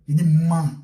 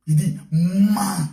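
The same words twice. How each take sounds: First: Louder preacher's barked order to lie; a sudden louder call to lie; loud command. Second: Louder and drawn out very slowly; slow, weighty repeat of the order; slow emphatic. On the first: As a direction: hit it hard as a command. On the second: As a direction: stretch each word like a solemn verdict. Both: Acted.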